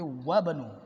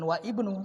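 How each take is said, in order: First: The words run together without a glottal stop. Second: A glottal stop separates wa from ibnu. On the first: The speaker calls it right. "tapi wabnu karena dia di tengah" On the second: The speaker calls it wrong. "bukan wa ibnu"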